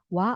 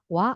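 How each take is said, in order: First: The two vowels merge into one gliding syllable. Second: The same.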